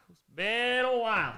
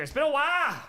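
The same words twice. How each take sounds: First: Said in the usual way. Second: Higher-pitched, playful burst; high playful exclamation. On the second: Pretend. Streamer opening a first beer, high and playful. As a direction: pitch it up and let it drop at the end. Riffing on a familiar phrase.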